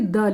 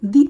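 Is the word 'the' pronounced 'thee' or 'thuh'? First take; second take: thuh; thee. First: The vowel is a short 'uh' sound. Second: The vowel is a long 'ee' sound. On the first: The next word starts with a consonant sound. "Consonant sound से पहले use कर रहे हैं तो उसको द बोलेंगे" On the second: The next word starts with a vowel sound. "वॉल sound से पहले होता है तो उसे दी उच्चारण करते हैं"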